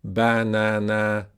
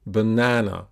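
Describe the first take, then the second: First: Banana in three slow, equal syllables, each A full and clear; all syllables equal. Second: Banana with a long middle syllable, short weak ends; stress on second syllable. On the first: Teacher showing how it would wrongly sound, banana evenly stressed. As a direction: give every syllable of banana the same weight, drawn out. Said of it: "pronounce them the same". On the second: Teacher correcting the even version, banana stressed in the middle. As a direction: stress the middle of banana and let the last fall. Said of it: "but it's not". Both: Shown as a demonstration.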